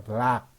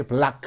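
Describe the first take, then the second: First: Said in the usual way. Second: 블락 with an audible 크 puff after it; overdone k release ending 블락; released final k. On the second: Shown as a demonstration. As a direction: let the final k of 블락 pop out. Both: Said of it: "굳이 블락 안 해도 되죠".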